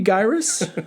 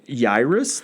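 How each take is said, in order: First: The name begins with a G sound. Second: The name begins without any G sound.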